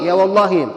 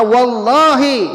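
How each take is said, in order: First: Said in the usual way. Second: Wallahi stretched out slow and louder, stubborn oath; defiant Bedouin. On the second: Retold or imitated. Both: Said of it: "Dia berkata, faqala".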